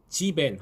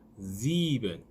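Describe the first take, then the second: First: The first S has no buzz. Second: The first S is a buzzing z sound. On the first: The speaker calls it wrong. "지벤 하시면 안 되고요" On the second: The speaker calls it right. "굉장히 고급스러운 S 발음이 됩니다"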